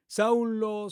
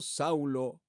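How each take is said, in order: First: Higher, ringing call of the name. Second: "Saulo" lower and much softer, like a fading echo. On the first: Preacher voicing Jesus calling Saul, a higher ringing call. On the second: Preacher voicing Jesus calling Saul, a soft low echo of the name. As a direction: let the second "Saulo" fall away low and quiet. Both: Acted.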